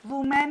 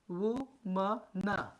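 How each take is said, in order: First: वुमेन said with a clear men ending, the common mistake; wrong pronunciation. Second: वुमन said as woo-mun, short u and a soft unstressed mun; वुमन spoken slowly and low, the right way; correct pronunciation. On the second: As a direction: say वुमन plainly as the singular, not वुमेन. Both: Shown as a demonstration. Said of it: "वुमेन नहीं".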